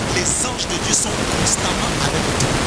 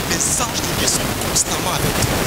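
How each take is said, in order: The two takes are said the same way.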